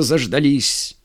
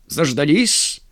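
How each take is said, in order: First: "заждались" falling at the end as an admission; confirming fall. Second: "Заждались" rising at the end as a question; questioning rise. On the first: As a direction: answer "заждались" with a settled, falling ending. Colonel confirms with the same word. («заждались» с утвердительным понижением) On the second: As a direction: ask "Заждались" with a lifted ending. Arriving officer asks, answered with same word. («Заждались» с вопросительным подъёмом) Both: A narrator's reading.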